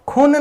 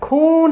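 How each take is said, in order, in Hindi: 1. स्वर छोटा बोला गया है। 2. स्वर लंबा बोला गया है। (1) "खून नहीं ना आ रहा है" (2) "ऊ का लॉन्ग आ रहा है"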